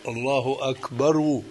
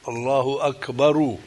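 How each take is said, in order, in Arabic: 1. تنتهي akbar بحركة 'u' واضحة. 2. تنتهي akbar بحركة 'u' واضحة.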